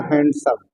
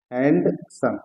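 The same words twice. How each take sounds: First: Said in the usual way. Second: handsome broken in two, hand, pause, सम; split into syllables. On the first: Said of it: "syllable का मतलब होता है शब्दों के वो टुकड़े". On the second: Shown as a demonstration. Teacher showing students the syllables, handsome split as hand - सम. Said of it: "hand और सम".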